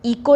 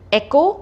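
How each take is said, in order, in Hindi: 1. यह शब्द 'ee' ध्वनि से शुरू होता है। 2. यह शब्द 'eh' ध्वनि से शुरू होता है। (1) "इको नहीं"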